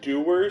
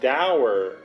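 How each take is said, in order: First: The word rhymes with door. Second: The word rhymes with sour. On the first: The speaker calls it wrong. "Why did he say that wrong?" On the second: The speaker calls it right. "sour, dour"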